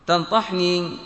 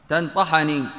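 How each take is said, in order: First: تنطحني said slowly with kasra on the ta, tan-ti-hu-ni; kasra reading. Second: تنطحني said with fatha on the ta, tan-ta-hu-ni; fatha reading. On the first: Teacher showing students the first permitted vowel, slow. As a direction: drag out تنطحني slightly, showing the i under the ta. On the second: Teacher giving students the second permitted vowel, clear. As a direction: give تنطحني the open a on the ta as the second option. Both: Shown as a demonstration. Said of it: "بكسر الطاء وفتحها".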